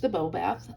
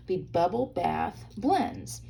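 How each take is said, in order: First: Said in the usual way. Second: "Bubble Bath" said slowly, every sound crisp and separate; carefully enunciated. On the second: Shown as a demonstration. Crafter on camera re-saying the stamp colour name, slow careful enunciation. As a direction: spell out "Bubble Bath" slowly, consonants clear. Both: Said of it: "let me enunciate that better".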